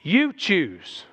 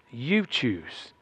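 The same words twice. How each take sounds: First: "You" stressed firmly. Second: Quiet repeat. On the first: Preacher telling the congregation it is their choice, "You" stressed. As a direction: punch "You" in "You choose". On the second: Preacher repeating the point softly to the congregation, lower and quieter. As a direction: lower and softer "You choose". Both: Shown as a demonstration.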